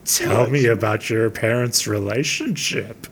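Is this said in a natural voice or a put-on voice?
put-on. It is read in a creepy put-on character voice.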